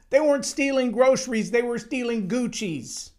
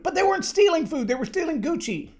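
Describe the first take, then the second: First: Chuckle, then "groceries" said high and amused; amused retelling of the same point; laughing repeat. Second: "stealing" hit hard with rising indignation; indignant outburst. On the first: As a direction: laugh at how absurd it is. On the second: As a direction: fire back at the excuse. Indignant correction of excuse. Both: Real, not acted.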